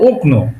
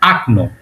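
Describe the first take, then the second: First: The first vowel sounds like o. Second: The first vowel sounds like a. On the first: The speaker calls it wrong. "যদি তুমি বলো ওকনো, হয়তোবা রাশিয়ান বুঝে ফেলবে" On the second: The speaker calls it right. "সঠিক উচ্চারণটা কি হবে? আকনো"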